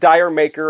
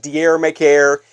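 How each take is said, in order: First: It sounds like the words 'dire maker'. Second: It sounds like the words 'dier maker'. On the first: "It's not Dire Maker" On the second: "it's not Dier Maker"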